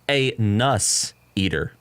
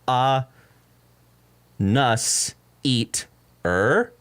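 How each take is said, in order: First: The name is said with plain English pronunciation. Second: The name is said with a French-style pronunciation. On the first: "it's actually" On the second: "in its native language of French"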